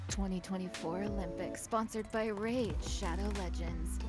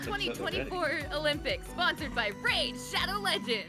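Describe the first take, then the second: First: It is said in a sultry, seductive voice. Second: It is said like a hyped esports announcer.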